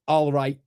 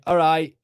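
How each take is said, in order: First: It is said carefully, with every sound clear. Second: It is clipped, with sounds dropped. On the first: This is the careful way the speaker does not use. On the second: This is how the speaker really talks. "I don't cross my T's and dot my I's"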